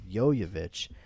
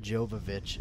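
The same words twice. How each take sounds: First: The name begins with a Y sound. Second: The name begins with a J sound. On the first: The speaker calls it right. "the best way to remember it is just say, yo, you bitch" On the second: The speaker calls it wrong. "I had always said Mila Jovovich at that point"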